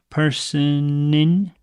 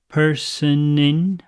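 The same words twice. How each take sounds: No difference in how they are said.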